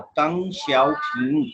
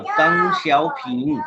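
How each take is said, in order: First: तंग शाओपिंग said slowly at normal pitch; slow, even choral lead on तंग शाओपिंग; repeat-after-me model. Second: तंग शाओपिंग said slowly, तंग pitched well up; model pronunciation. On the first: Teacher leading the class in repetition, slow and even. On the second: Teacher saying the name first for students to repeat, slow and high. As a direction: sound out तंग शाओपिंग slowly for the class to copy. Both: Shown as a demonstration. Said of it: "अब बोले मेरे साथ".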